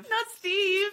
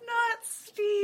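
First: High, loud laughing squeal of protest; laughing mock outrage. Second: High, loud squealed protest; mock outrage. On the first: Friend echoing not Steve, laughing high mock protest. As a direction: shriek it in laughing mock horror. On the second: Echoing friend's defence of Steve, high squealed protest. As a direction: squeal it like a scandalized fan.

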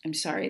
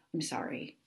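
First: Said in the usual way. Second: Sheepish whispered sorry; whispered apology. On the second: Real, not acted. Host apologizing to confused listeners in a sheepish whisper. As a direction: murmur it under your breath.

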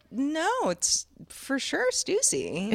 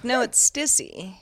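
First: "Stussy" said slowly, higher, with a long oo; correct pronunciation. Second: "Stissy" said slowly with a short i sound; wrong pronunciation. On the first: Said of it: "people would be like". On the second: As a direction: insist on "Stissy", slowly and deadpan. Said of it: "she was like". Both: Retold or imitated.

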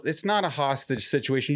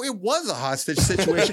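First: Said in the usual way. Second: Insisting on "was"; stress on was. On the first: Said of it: "And they go". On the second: Retold or imitated. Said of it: "I go".

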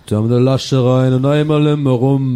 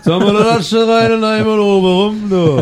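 First: Put-on Cologne accent. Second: Louder, higher Cologne dialect; hammed-up Kölsch singsong; Cologne accent. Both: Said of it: "Oder man macht so Kölsche".

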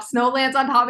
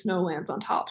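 First: Chanted, bright burst of realization; chanted, say it like the pieces just clicked; excited chant. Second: Softer, as a mysterious teaser; ominous quoted phrase. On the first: Real, not acted. Fan explaining theory to viewers, excited chant. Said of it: "why I'm acting like that". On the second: Shown as a demonstration. Teasing viewers about what's coming, ominous hush. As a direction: drop the voice and let it hang. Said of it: "you'll understand the phrase".

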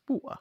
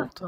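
First: "water" as wa'er, glottal stop for T; dropped T. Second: "water" with a crisp middle T; pronounced T. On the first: Insisting on own pronunciation, "water" with T dropped. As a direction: swallow the T in "water". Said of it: "It's water". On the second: Showing the rejected version, "water" with a clear T. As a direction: say "water" with the T fully sounded. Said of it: "not water". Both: Shown as a demonstration.

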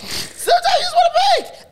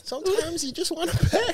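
First: Laughing shout. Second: High mocking voice. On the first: Retold or imitated. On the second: Repeating the line, teasing.

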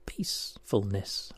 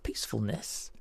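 First: "peacefulness" slow, low and soft; syllable by syllable. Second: Said in the usual way. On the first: Shown as a demonstration. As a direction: reveal "peacefulness" slowly and quietly, part by part. Puzzle answer shown by syllables.

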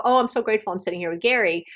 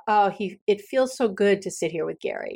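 First: Fast, rattled off without feeling; rushed rote gratitude. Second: Tender appreciation. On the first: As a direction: toss it off as a habit. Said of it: "I don't go". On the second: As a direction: let the warmth settle in. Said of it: "I really think about". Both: Shown as a demonstration.

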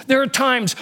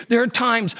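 The two takes are said the same way.

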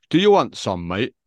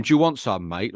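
First: Put-on northern accent. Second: Said in the usual way. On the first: Mimicking his massive mate squaring up to young lads, northern accent. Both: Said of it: "In a northern accent".

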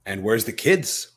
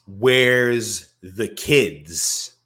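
First: Said in the usual way. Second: Slow, high, loud and stretched; a hammed-up stretched cry; drawn-out mock wail. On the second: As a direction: wail it out long like a frantic parent. Drawn out repeat of quote.

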